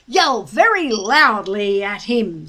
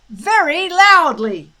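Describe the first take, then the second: First: Very stressed, louder. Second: Louder, higher Very loudly; emphatic repeat. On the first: Stoic instructs his son, stressing very. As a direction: hammer the word very. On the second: Stoic repeats his order to Hiccup, louder. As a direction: repeat it with force. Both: A narrator's reading.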